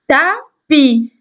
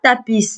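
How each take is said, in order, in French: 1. Le mot finit par une voyelle, pas de s. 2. Le s final se prononce. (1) "elle ne se prononce pas" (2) "On ne dit pas tapis, non"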